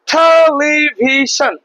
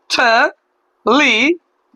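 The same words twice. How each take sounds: First: television slowly stretched as one connected word; whole word, drawn out. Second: television in four separate beats, te-li-vi-shon; television very slowly, a gap after each syllable. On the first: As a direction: draw out television without breaking it up. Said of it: "ভাগ করে, ভাগ করে আমরা পড়তে পারবো". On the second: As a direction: break television into four slow syllables with pauses. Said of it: "চারটা অংশে আমরা ভাগ করতে পারলাম". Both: Shown as a demonstration.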